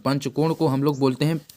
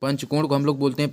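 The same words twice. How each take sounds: First: Slow repeat. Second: Said in the usual way. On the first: Shown as a demonstration. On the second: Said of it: "प-, पंचकोण को हम लोग बोलते हैं".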